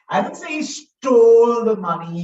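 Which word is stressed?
stole. The word "stole" carries the main stress. He may have borrowed it instead. "He could have borrowed it"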